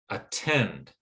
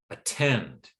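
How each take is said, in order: The two takes are said the same way.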